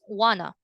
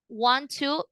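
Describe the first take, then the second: First: The words merge into one reduced word. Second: Both words are said fully and separately.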